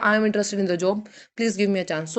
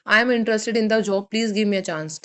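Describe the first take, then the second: First: Two parts, split after job; with punctuation. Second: No break between job and please; without punctuation. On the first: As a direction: clear pause between job and please. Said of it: "punctuation के साथ आएगा". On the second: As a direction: run job straight into please. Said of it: "जैसे without punctuation है". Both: Shown as a demonstration.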